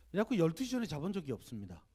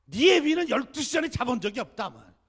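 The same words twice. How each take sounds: First: Said in the usual way. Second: Much higher and louder scolding mother voice; scolding grandmother. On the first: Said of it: "narrator's own plain line". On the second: Retold or imitated. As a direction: belt it out like a fed-up grandmother. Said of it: "어머니가 이렇게 야단치세요".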